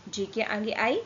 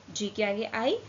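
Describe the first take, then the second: No difference in how they are said.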